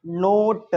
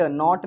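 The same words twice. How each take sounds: First: "नोट" with a long closed oh vowel. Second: "नॉट" with a short open aw vowel; open O, wrong reading. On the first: Teacher giving the right reading, "नोट" with long oh. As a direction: say "नोट" loudly, rounding the O. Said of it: "नॉट नहीं, नोट". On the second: Teacher rejecting a misreading, "नॉट" with open aw. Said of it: "नॉट नहीं". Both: Shown as a demonstration.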